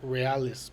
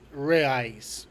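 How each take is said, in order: First: The word is said with an L sound. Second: The word is said without any L sound. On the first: The speaker calls it wrong. "not realis" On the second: The speaker calls it right. "Is reais"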